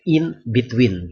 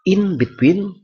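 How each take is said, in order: First: The words are separate, with a clear n. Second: Said fast and linked, the n sounds like m. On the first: "itu secara terpisah" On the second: "dalam bentuk fast speaking atau rapid speech"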